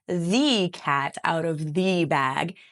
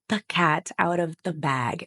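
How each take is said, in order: First: The word 'the' is long and full. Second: The word 'the' is short and reduced. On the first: The speaker calls it wrong. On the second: The speaker calls it right. "it's a very small the sound"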